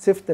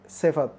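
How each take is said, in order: First: One-syllable sift, FT at the end; mispronunciation. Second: Si-fat, two clear syllables; correct pronunciation. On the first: Teacher rejects the wrong form, one-syllable सिफ्त. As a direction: clip out the vowel between F and T in सिफ्त. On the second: Teacher gives the right form, two-syllable सिफत. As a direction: sound the A between F and T in सिफत. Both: Shown as a demonstration. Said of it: "सिफ्त नहीं, सिफत".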